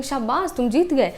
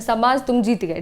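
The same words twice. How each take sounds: First: A touch of surprised praise; exclamation of wonder. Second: Said in the usual way. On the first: Shown as a demonstration. Teacher shows how an exclamation mark sounds, mildly exclaiming. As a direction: lightly exclaim it, as a demonstration. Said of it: "हाँ हमें आश्चर्य दिखाना है". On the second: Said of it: "ये बोलना चाह रहे हैं हम तो कैसे बोलेंगे".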